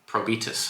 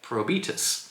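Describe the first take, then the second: First: It is said with a Spanish accent. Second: It is said with a plain English accent.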